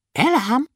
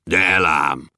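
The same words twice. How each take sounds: First: Much higher, thin little voice; high thin dwarf promise. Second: Much lower, thick dwarf voice; low gruff dwarf promise. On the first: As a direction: squeak the promise like a tiny dwarf. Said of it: "mondta vékonyan Kökőszi". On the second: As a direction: rumble the promise deep and sure. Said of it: "ígérte vastagon Bobolysa is". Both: A narrator's reading.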